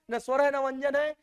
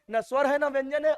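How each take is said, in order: Both takes have the same delivery.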